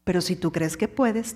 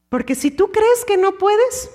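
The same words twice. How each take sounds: First: Much lower and softer, settled and falling. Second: Pitched higher, rising doubtful tone; raised questioning. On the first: Preacher answering doubt, low and softly assured. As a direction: drop down into quiet conviction. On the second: Preacher voicing the doubter, higher and rising. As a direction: lift the voice as if doubting. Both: Shown as a demonstration.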